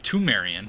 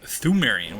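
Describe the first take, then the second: First: The word begins with a hard T sound. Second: The word begins with a soft th sound. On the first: This links the name to tombs. "equally as valid to pronounce it uh, Tumerian, to make that connection explicit" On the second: This is the usual way people say the name. "we've all been pronouncing it Thumerian with the soft T"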